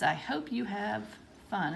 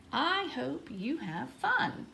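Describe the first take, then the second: First: Said in the usual way. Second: Higher, slow and expressive; heartfelt exclamation, lilting up on each word; read with feeling. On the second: Shown as a demonstration. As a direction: stretch it out with lots of feeling. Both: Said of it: "Let's read it with a feeling".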